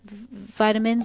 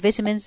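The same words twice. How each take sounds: First: It is said in an American pronunciation. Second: It is said in a British pronunciation.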